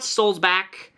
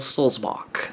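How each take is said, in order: First: The last syllable sounds like back. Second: The last syllable sounds like bock. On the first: The speaker calls it wrong. "it's not Solzback" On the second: The speaker calls it right. "as in like John Sebastian Bach"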